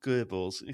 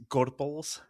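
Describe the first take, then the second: First: "Goebbels" as GER-bels with no r, a mistaken reading of Gorbals; Goebbels said wrong. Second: "Gorbals" as GOR-bals with a clear r, ending on a rise; Gorbals said right. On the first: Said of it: "so I don't think it's Goebbels". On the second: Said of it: "I'll go with Gorbals". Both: Shown as a demonstration.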